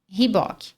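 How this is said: It is said with a Brazilian Portuguese pronunciation. The speaker calls it wrong. "Muita gente fala essa aqui como"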